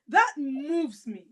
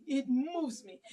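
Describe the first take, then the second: First: Each word drawn out, slow; slow emphatic. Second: That moves me repeated softly. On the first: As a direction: that moves me, said slowly and weighty. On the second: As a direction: drop to a quiet echo. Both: Real, not acted.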